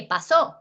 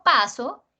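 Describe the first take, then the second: First: "pasó" con fuerza en SÓ; acento en la última. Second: "paso" con fuerza en PA; acento en la penúltima. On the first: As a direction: carga la sílaba final de "pasó". ("pasó" como aguda, pa-SÓ) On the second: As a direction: carga la primera sílaba de "paso". ("paso" como palabra grave, PA-so) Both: Shown as a demonstration. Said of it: "No es lo mismo paso que pasó".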